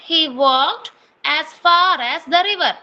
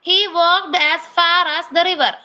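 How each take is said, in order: First: The sentence is spoken at a slow pace. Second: The sentence is spoken at a fast pace. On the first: The speaker calls it right. "ഞാൻ മെല്ലെ പറയാം കേട്ടോ" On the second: The speaker calls it wrong. "ഞാൻ കുറച്ച് സ്പീഡിൽ പറഞ്ഞതാണ്"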